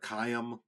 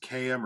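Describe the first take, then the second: First: It is said as a single two-syllable word. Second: It is said as two separate letter names.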